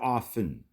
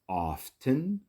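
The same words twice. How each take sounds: First: The T sound is silent in the middle. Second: The T sound is pronounced in the middle.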